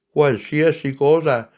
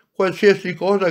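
First: Esclamato con slancio, un po' più forte; grido entusiasta. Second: Grido entusiasta, più acuto e più forte. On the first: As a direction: gridalo felice e impaziente. (la piccola anima grida all'anima amica, entusiasta) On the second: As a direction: ripetilo più in alto, al culmine della gioia. (la piccola anima insiste gridando, ancora più acuta) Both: A narrator's reading. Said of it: "gridò la piccola anima".

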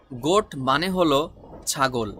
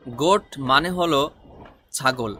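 No difference in how they are said.

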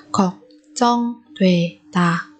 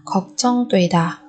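First: 걱정되다 slowly, each syllable apart. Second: Said in the usual way. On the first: Shown as a demonstration. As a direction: break 걱정되다 into drawn-out syllables. Teacher models word syllable by syllable.

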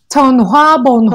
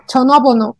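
First: "전화번호" read letter by letter, fast; imitating learners reading "전화번호" as spelled; misread spelling. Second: "전화번호" said smoothly, native-like linking; native pronunciation. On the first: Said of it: "la gente la lee". ("전화번호" leído como se escribe) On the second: Shown as a demonstration. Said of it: "No, dígalo". ("전화번호" con pronunciación nativa)

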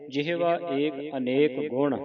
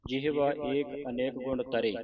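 First: "ਗੁਣ" closes the phrase, then a pause; pause after ਗੁਣ. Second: Quick, softer line running through to "ਤਰੇ"; misplaced pause. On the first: Shown as a demonstration. Teacher shows the correct rest point, phrase halting on "ਗੁਣ". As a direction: recite slowly and stop on "ਗੁਣ". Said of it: "ਗੁਣ ਤੇ ਵਿਸਰਾਮ ਲਾਉਣਾ ਹੈ". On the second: Retold or imitated. Teacher mimics congregations' wrong pause, running on to "ਤਰੇ". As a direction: skip past "ਗੁਣ" and stop after "ਤਰੇ". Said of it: "ਕਈ ਸੰਗਤਾਂ ਇਹਦਾ ਵਿਸਰਾਮ ਗਲਤ ਲਾ ਜਾਂਦੀਆਂ".

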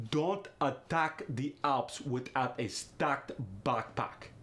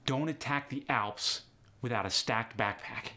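First: Slow, thick Russian accent; Russian accent with ah in "attack" and "backpack". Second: Said in the usual way. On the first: Shown as a demonstration. [name] tries the practice sentence, slow Russian accent. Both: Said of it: "Try this sentence in different ways".

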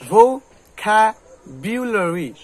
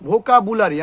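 First: ভোক্যাবুলারি slowly in loud separate pieces, "vo... ka... byu-lori"; "KAE" and "BYU" in ভোক্যাবুলারি; correct pronunciation. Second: ভোকাবুলারি as "bho-ka-bu-la-ri"; common mispronunciation. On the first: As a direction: break up ভোক্যাবুলারি syllable by syllable, loud. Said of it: "তাহলে উচ্চারণটা কি". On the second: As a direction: open "bu-la-ri" in ভোকাবুলারি. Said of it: "আমরা কি বলি". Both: Shown as a demonstration.

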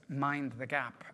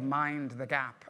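First: Said in the usual way. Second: "mind the gap" drawn out slowly, each word separate; teaching the Tube phrase to the class, slowly; slow, spelled-out mind the gap. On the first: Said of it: "it's called there". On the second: Shown as a demonstration. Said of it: "it's called".

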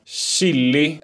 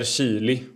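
First: "Chili" with a short first I; variant pronunciation. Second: "chili" with a long first I; variant pronunciation. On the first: Host offers rival pronunciations, short-I "Chili". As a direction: say "Chili" as SHILL-i. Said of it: "Chili, såklart". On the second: Host offers rival pronunciations, long-I "chili". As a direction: say "chili" as SHEE-li. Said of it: "Chili eller chili?". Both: Shown as a demonstration.

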